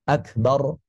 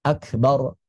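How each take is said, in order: No difference in how they are said.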